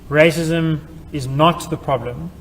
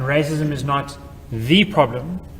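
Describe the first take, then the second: First: The word not is stressed. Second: The word the is stressed. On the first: "where the emphasis is on not" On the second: "where the emphasis is on the word the"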